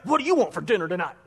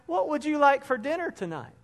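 First: It is said in a harsh tone. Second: It is said in a friendly tone.

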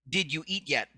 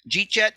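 First: Each word is said fully and separately. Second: The words are squeezed together into two quick syllables.

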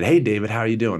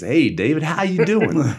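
First: It is said in a neutral accent. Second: It is said in a Texas accent.

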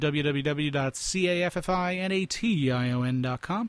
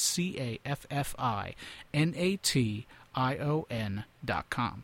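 First: It is said fast. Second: It is said slowly.

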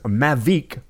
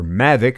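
First: The name is said the non-American way. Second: The name is said the American way.

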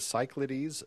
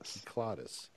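First: The word begins with an S sound. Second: The word begins with a K sound. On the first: The speaker calls it wrong. "I always wanted to say the Cyclades because that's how I would pronounce it" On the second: The speaker calls it right. "it was pointed out it was the Kyklades"

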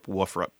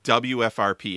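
First: The term is said as a single word. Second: The term is said as separate letters. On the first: "we never called Woofrup Woofrup" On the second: "We always called it WFRP"

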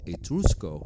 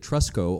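First: The name is said in a put-on Italian accent. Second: The name is said in a plain English accent.

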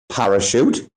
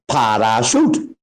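First: The stress falls only on the first syllable. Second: The stress falls equally on every syllable. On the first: This is how English speakers say it. "in English we say" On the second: This is how Thai speakers say it. "They say"

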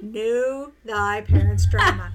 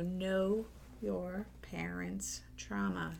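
First: It is said in a put-on Shakespearean voice. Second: It is said in her natural voice.

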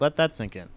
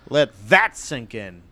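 First: It is said flatly, without emphasis. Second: It is said dramatically, with heavy emphasis.

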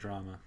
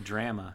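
First: It is pronounced with an American accent. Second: It is pronounced with a Canadian accent. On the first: "instead of drama" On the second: "Also say drama"

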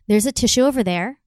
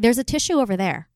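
First: It is said in a tentative, unsure way. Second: It is said in a firm, confident way. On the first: The listener just acknowledges it and does nothing. The speaker calls it wrong. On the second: The listener feels moved to act on it. The speaker calls it right.

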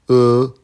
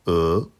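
First: The pitch stays high and level. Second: The pitch rises from mid to high. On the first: "premier ton" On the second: "deuxième ton"

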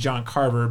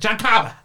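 First: The name is said in a plain accent. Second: The name is said in a Boston accent.

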